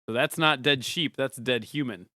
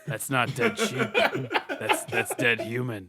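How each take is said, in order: First: It is said in a normal voice. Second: It is said in a gravelly, deep voice.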